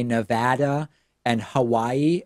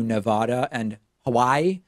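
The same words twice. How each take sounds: First: Nevada with flat a as in sad, Hawaii with a w sound; corrected Nevada and Hawaii. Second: Nevada with broad ah as in father, Hawaii with a v sound; old Nevada and Hawaii. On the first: Host showing how he now says state names. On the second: Host showing the names he used to mispronounce. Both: Shown as a demonstration. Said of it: "as opposed to".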